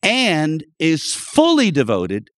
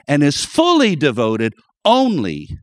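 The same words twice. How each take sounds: First: Said in the usual way. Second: Fully leaned on and set apart; stress on fully. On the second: Shown as a demonstration. Preacher stressing devotion to congregation, stress on fully. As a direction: press hard on the word fully. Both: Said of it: "I emphasize the word fully".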